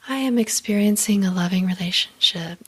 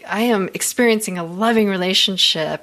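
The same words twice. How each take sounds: First: It is read plainly, without much feeling. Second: It is read with strong, intense feeling. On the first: The speaker calls it wrong. "I don't just say" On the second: The speaker calls it right. "I read it with the intensity with which I want to feel it"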